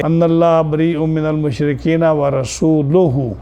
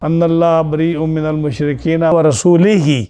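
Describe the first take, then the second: First: رسولہ read correctly as rasuluhu, with a u ending; the right reading of رسولہ as rasuluhu. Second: رسولہ misread as rasulihi, with an i ending; the wrong reading of رسولہ as rasulihi; misread verse. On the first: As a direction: slowly recite the verse properly, رسولہ ending in -luhu. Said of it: "اس آدمی نے آپ کو غلط پڑھایا ہے". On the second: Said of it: "جیسے اس آدمی نے پڑھایا". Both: Shown as a demonstration.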